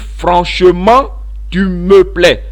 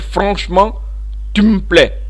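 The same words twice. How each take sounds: First: Every unstressed e sound is fully pronounced. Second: The unstressed e sounds are dropped entirely. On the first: "Quelqu'un peut dire" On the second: "il va faire sauter les E caducs, les E muets"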